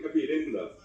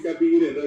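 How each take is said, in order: First: Capirenda with the stress shifted, as Bolivians say it; their Bolivian stress. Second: Capirenda with the Paraguayan stress pattern; our Guaraní stress. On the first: Retold or imitated. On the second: Shown as a demonstration. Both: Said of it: "tenemos el acento llano".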